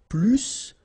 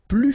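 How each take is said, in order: First: The final S sound is pronounced. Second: The final S sound is silent. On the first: It compares with a verb. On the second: It compares with an adjective.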